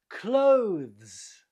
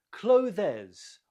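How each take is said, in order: First: "clothes" as one long, loud syllable, voiced ending; correct pronunciation. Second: "clothes" wrongly split into two syllables, clo-thez; wrong pronunciation. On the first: Teacher corrects the mistake, "clothes" as one drawn-out syllable. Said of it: "but clothes". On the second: Teacher shows learners the mistake, "clothes" in two syllables. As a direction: add an extra vowel to "clothes": CLO-thez. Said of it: "Not clothes, but clothes". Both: Shown as a demonstration.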